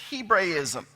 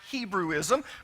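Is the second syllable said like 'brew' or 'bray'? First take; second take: bray; brew. First: The second syllable sounds like 'bray'. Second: The second syllable sounds like 'brew'. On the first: The speaker calls it right. "the correct pronunciation is Hebraism" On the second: The speaker calls it wrong. "You've heard it Hebrewism"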